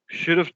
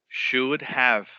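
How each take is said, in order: First: It is reduced to one contracted form, should've. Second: Both words are said fully and separately. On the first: "Él usa la contracción esta" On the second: "entonces decimos lo completo"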